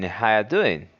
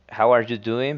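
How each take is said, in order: First: How you doing with no are and How said as ha; casual blended How you doing; reduced form. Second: How are you doing with every word pronounced; full form. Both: Shown as a demonstration. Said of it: "becomes in".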